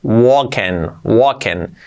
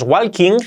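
First: Walking as "woken"; silent L. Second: Walking as "wal-king"; L pronounced. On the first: Teacher modelling the right way, silent L. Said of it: "la L no se pronuncia". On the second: Teacher warning of the mistake, L pronounced. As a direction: sound the L and a full "king" in walking. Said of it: "cuidado que no es walking". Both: Shown as a demonstration.

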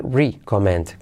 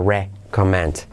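First: "recommend" starting with a long "ree"; wrong "ree" vowel. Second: "recommend" starting with "reh"; short E. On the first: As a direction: mispronounce "recommend" as "ree-commend". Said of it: "Cuidado no decir". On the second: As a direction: say "recommend" slowly with an open first E. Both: Shown as a demonstration.

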